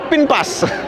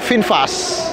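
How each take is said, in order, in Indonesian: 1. Diucapkan dengan bunyi 'p' dengan logat Sunda. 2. Diucapkan dengan 'v' dan 'f' yang biasa.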